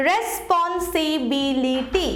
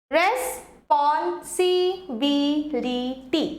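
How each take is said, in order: First: Said slowly; slow model word. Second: Very slow, split into syllables. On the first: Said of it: "দেখো কি হলো". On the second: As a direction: break it into syllables for the class. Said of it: "দেখো". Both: Shown as a demonstration.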